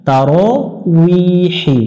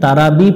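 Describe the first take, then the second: First: The middle consonant is a 'w' sound. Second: The middle consonant is a 'b' sound. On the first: The speaker calls it right. "ওয়াউজের উই হয় তারাউইহি" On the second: The speaker calls it wrong. "এখানে তারাবি পড়া যাবে না"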